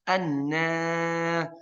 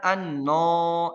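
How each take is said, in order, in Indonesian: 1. Vokal panjang itu tipis dan terang, seperti a. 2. Vokal panjang itu tebal dan gelap, mengarah ke o. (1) "Tapi harusnya gimana?" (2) "ini alif tebal, tidak"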